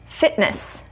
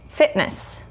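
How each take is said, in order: The two takes are said the same way.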